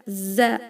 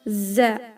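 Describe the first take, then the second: Both takes have the same delivery.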